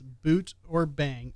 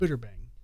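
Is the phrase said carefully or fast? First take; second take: careful; fast. First: Each word is said separately and clearly. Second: The words are said fast and run together.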